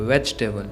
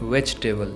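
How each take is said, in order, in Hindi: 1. बीच के दो स्वर छोड़ दिए जाते हैं। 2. बीच के दो स्वर छोड़ दिए जाते हैं।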